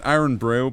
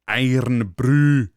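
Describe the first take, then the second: First: It is said in the speaker's plain accent. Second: It is said in a cartoonish Scottish accent.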